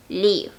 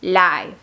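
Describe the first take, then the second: First: Live said with a short i, like liv; live rhyming with give. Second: Live said with a long I, like lyve; Live rhyming with five. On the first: (live pronunciado liv) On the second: (Live pronunciado laiv) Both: Shown as a demonstration. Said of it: "se pronuncian completamente diferente".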